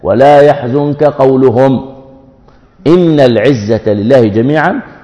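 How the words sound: There is a clear pause after قولهم. The phrase is a separate statement, not their words. The speaker calls it right. "ذا كانت وقف لازم"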